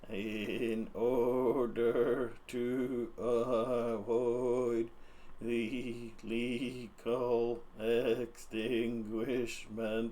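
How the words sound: It is said in a scarier put-on voice. "I'm tired of doing this voice"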